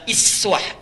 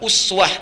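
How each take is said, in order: First: The word begins with a front 'i' vowel. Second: The word begins with a rounded 'u' vowel. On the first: Even the small qualities are an example to follow. "bisa iswah, iswah riwayat Qalun atau Warash dari Nafi'" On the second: Even the lofty qualities are an example to follow. "Bisa uswah riwayat Hafs dari Asim"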